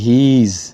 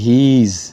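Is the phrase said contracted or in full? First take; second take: contracted; contracted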